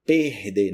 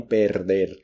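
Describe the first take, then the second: First: "perder" said as "pehde", breathy h for the middle r, final r dropped; Brazilian pronunciation. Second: "perder" with a tapped middle r and a rolled final r, as Spanish says it; "perder" said the wrong way, every r tapped; Spanish-style pronunciation. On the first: Teacher showing Spanish speakers the right Brazilian "perder". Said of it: "Preste atenção na pronúncia". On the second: Teacher showing Spanish speakers the wrong "perder" to avoid. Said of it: "não perder". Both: Shown as a demonstration.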